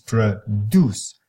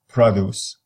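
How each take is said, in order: First: The stress is on the second syllable. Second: The stress is on the first syllable. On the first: It is used as a verb. "if you make it as a verb ... the whole syllable becomes strong" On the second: It is used as a noun. "you make the first part of the first syllable more pronounced"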